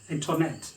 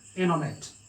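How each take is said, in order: First: The t after n is pronounced. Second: The t after n is silent. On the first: The speaker calls it wrong. "but we pronounce it as internet" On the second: The speaker calls it right. "American people sound it as internet"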